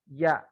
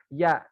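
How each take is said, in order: The two takes are said the same way.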